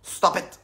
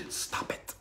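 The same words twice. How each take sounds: First: Said in the usual way. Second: Breathy whispered stop it. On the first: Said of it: "You gotta stop". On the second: Shown as a demonstration. Coach whispering Stop it to listeners as a demo. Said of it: "And say".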